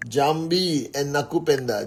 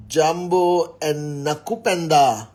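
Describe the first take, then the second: First: Jambi said with a final ee sound, jam-BEE; Jambi, ending in ee, trying the other version. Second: Jambo said with a clear final o, jam-BO; Jambo, ending in o, slow and careful. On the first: Greeting Kenyan viewers live, trying Jambi with a final ee. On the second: Greeting Kenyan viewers live, Jambo with a final o. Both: Shown as a demonstration. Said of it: "Jambo or Jambi?".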